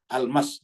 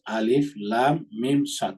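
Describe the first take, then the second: First: The letters are joined into one word. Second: Each letter name is said separately. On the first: The speaker calls it wrong. "nggak boleh dibaca nyambung" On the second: The speaker calls it right. "Jadi harus"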